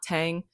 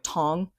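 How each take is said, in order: First: The vowel sounds like the one in 'tang'. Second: The vowel sounds like the one in 'tong'. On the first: The speaker calls it wrong. "it's not Tang" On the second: The speaker calls it right. "it's pronounced like Tong"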